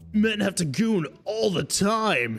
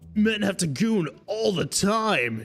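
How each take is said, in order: First: It is said in a put-on character voice. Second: It is said in a put-on character voice.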